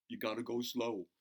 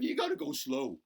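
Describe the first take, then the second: First: Said in the usual way. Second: You gotta go slow, still much higher and giddy from laughing. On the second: Acted. Bobby still laughing as he tells the kids to go slow, high giddy. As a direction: squeak it out excitedly.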